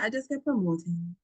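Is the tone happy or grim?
grim. It is said in a grim, somber tone.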